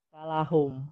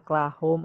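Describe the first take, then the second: First: A vowel separates the k and l. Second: The k and l form one cluster. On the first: The speaker calls it right. "tapi dia kalahum" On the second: The speaker calls it wrong. "bukan klahom"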